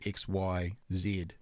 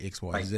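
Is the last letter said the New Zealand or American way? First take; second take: New Zealand; American. First: It is said with a New Zealand accent. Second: It is said with an American accent.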